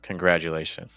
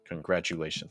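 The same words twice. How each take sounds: First: The word is said smoothly with flowing breath. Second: The word is said in choppy, separated bits. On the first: The speaker calls it right. "trying to keep the breath flowing a little bit more" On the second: The speaker calls it wrong. "Congratulations is a little choppy"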